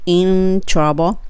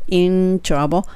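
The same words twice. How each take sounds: Both takes have the same delivery.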